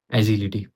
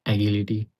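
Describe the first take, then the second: First: "एजिलिटी" with a soft j sound in the middle; soft-g pronunciation. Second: "एगिलिटी" with a hard g in the middle; hard-g pronunciation. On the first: Student tries out the word agility, "एजिलिटी" with soft j. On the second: Student tests another reading of agility, "एगिलिटी" with hard g. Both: Shown as a demonstration. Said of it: "गलत pronounce कर".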